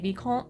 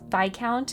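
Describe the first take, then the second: First: It is said with a French pronunciation. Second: It is said with an English pronunciation. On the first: The speaker calls it wrong. "like from the French pronunciation" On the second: The speaker calls it right. "it is Viscount if you're saying it in English"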